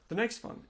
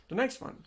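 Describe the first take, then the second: Both takes have the same delivery.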